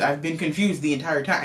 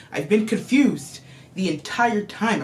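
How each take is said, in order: First: Said in the usual way. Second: Slow, stressed "I've been confused the entire time"; insistent emphasis. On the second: Real, not acted. Reviewer insists to viewers, slowly stressing "confused" and "entire". Repeats after "I told you.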